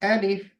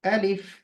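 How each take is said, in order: No difference in how they are said.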